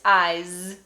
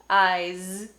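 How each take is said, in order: Both takes have the same delivery.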